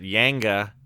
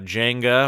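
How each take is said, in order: First: The word begins with a Y sound. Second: The word begins with a J sound.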